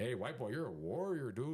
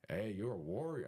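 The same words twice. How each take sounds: First: Higher, singsong mock Mexican accent; bad Mexican accent. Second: Tentative Mexican-accent imitation; attempted Mexican accent. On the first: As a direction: ham up a Mexican roommate's accent, badly. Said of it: "I'm not really good at accent, but he's like". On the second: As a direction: lightly try a Mexican roommate's accent. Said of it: "my accent, dude, I'm not really good at accent".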